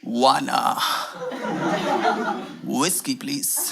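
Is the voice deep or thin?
deep. It is said in a deep, heavy voice.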